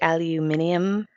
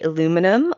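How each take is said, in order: First: The word is said with five syllables, aluminium. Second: The word is said with four syllables, aluminum. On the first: This is how the rest of the world says it. "does the rest of the world say aluminium?" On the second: This is the local way of saying it. "here we'd say aluminum"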